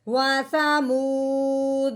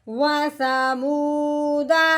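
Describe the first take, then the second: First: The word ends on a bounced, echoing d. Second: The word ends on a short vowel after d. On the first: The reader stops at this word. "दाल को हमने हिला दिया" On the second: The reading continues without stopping. "पहले हमने पढ़ा है"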